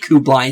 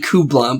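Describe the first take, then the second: First: The name ends with a 'lie' sound. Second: The name ends with a 'lah' sound. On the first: The speaker calls it wrong. "apparently I've been saying Kublai's name wrong" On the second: The speaker calls it right. "Apparently it's actually Kubla"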